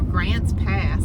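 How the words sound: It is said in an American accent.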